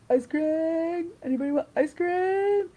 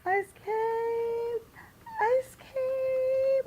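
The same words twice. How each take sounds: First: High, loud singsong holler; calling out. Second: Put-on very high toddler squeal, long-held vowel; Alexa. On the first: Retold or imitated. Friend offering everybody ice cream, high sing-out call. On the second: Two-year-old in the stroller demanding ice cream, imitated high scream. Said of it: "then Alexa starts screaming".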